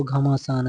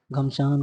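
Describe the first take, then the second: First: घमासान in three beats, gha-maa-saan; correct form घमासान. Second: घमसान in two beats, gham-saan; uncorrected form घमसान. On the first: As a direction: say घमासान with long aa after m. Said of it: "ऐसे शुद्ध रूप से". (घमासान, 'मा' को लंबा बोलकर) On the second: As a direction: say घमसान with no vowel after m. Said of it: "को घमासान ऐसे शुद्ध रूप". (घमसान, 'म' पर मात्रा के बिना) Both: Shown as a demonstration.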